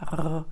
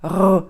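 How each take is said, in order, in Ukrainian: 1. Звук вимовляється м'яко і плавно. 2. Звук вимовляється голосно і з силою. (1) "а просто в звичайному положенні" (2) "Якщо це буде голосно, це буде звучати так"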